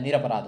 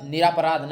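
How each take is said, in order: First: निरपराध with short a, "niraparadh", pitched lower; correct pronunciation. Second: निरापराध with a long aa after r, "niraaparadh"; wrong pronunciation. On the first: Teacher correcting the error, निरपराध with short "ra". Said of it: "होता है". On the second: Teacher showing the error, निरापराध with long "raa". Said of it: "नहीं होता है". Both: Shown as a demonstration.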